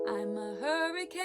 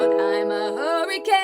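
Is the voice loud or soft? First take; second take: soft; loud. First: The phrase is said softly. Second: The phrase is said loudly. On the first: "It could be softer" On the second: "It could be loud"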